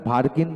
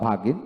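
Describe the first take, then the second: First: ভার্গিন with the r pronounced before g; r-ful variant of ভার্গিন; r sounded. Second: ভাগিন with no r before g; r-less variant of ভাগিন; r dropped. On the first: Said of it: "বলা যায় বা". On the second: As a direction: leave the r out, open a straight into g in ভাগিন. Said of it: "দুইটাই হয়". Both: Shown as a demonstration.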